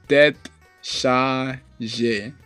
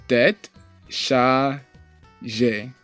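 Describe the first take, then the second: No difference in how they are said.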